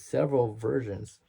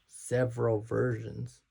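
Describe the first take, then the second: First: Said in the usual way. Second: "several versions" said slowly, syllable by syllable; slowed down. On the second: Shown as a demonstration. Correcting his rushed speech, slowed "several versions". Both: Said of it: "I'm speeding through my speech".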